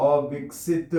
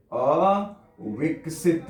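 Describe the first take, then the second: First: Said in the usual way. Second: अविकसित stretched out very slowly, each syllable clear; slow, drawn-out word. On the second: Shown as a demonstration. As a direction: spell it out slowly for the class. (अविकसित को धीरे-धीरे खींचकर बोलना)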